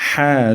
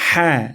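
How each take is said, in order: Both takes have the same delivery.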